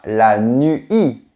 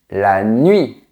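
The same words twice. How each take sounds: First: The u is a full, separate vowel. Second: The u is a quick glide into the vowel. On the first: The speaker calls it wrong. "On ne dit pas" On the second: The speaker calls it right. "on dit ... prononcé très vite"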